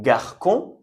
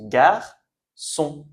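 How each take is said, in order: First: "garçon" misread as gar-kon, with a K; hard C. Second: "garçon" as gar-son, slowly split in two; soft C. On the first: Teacher showing the sound before the cédille changes it, hard C. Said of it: "on a changé le que". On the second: Teacher showing what the cédille changes the sound to, soft C. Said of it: "On prononce garçon". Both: Shown as a demonstration.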